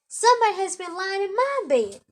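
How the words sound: It is said in a medium, middle-sized voice.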